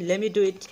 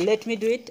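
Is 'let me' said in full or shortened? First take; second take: shortened; full. First: Let me is shortened into one quick word. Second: Let me is said as two full words. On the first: "সংক্ষেপে যদি বলি লেমি do it" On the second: "লেট মি মানে সংক্ষেপে না"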